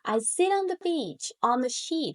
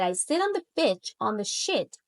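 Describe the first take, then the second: First: The vowel in sheet is long. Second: The vowel in sheet is short. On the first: The intended sentence is said. The speaker calls it right. "I try to say" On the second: It comes out as a rude word. The speaker calls it wrong. "instead of that, I said"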